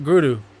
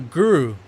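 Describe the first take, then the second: First: The R is a quick tap like d. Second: The R is a plain English-style R. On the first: The speaker calls it right. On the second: The speaker calls it wrong.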